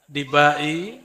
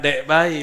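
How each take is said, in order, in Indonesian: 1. Nama itu diawali suku kata 'Di'. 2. Nama itu diawali suku kata 'Dek'. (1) "Dibai itu nama" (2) "bukan Dekbai"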